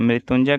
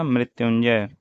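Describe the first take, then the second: First: मृत्युंजय as "mritunjay"; dropped y. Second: Said in the usual way. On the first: Shown as a demonstration. Teacher asking for the correction, मृत्युंजय without y glide. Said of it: "का क्या होगा". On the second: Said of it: "क्या होगा".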